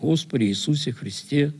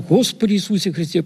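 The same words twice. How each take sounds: First: It is said slowly and calmly. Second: It is said fast and urgently. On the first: The person praying is at peace. "в спокойном состоянии и начинает действительно спокойно читать" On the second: The person praying is gripped by anger. "Слышишь скорость?"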